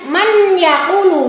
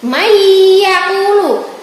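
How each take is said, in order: First: The n is pronounced clearly before the y. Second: The n merges into a nasalized, held y. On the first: The speaker calls it wrong. "tidak boleh dibaca dengan man yaqulu" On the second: The speaker calls it right. "bacanya harus mendengung atau berengeng"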